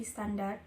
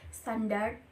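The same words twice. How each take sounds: First: Standar said the Indonesian way, no final d; Indonesian form. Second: Standar said as English standard, with a final d; foreign pronunciation. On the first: Teacher gives the adapted Indonesian standar after standard. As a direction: end standar cleanly on the r. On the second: Teacher says the English original standar before adapting it. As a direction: sound standar like standard, d at the end. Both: Shown as a demonstration. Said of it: "menjadi standar".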